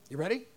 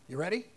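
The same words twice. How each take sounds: Both takes have the same delivery.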